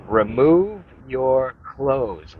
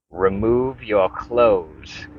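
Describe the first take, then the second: First: Higher, very drawn-out command; insistent cult leader. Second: Slow, drawn-out command; commanding cult leader. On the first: Masked leader insists that Tom Cruise strip, high slow mock command. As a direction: stretch each word into a hammed-up, insistent order. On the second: Masked leader orders Tom Cruise, slow mock-solemn command. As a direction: imitate a solemn leader giving an order, every word stretched. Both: Retold or imitated.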